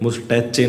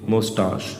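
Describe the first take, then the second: First: The word ends with a 'chay' sound. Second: The word ends with an 'sh' sound. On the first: The speaker calls it wrong. "मुस्टैचे नहीं है ये" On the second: The speaker calls it right. "इसकी pronunciation मुस्टाश"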